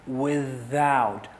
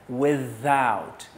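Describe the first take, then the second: The two takes are said the same way.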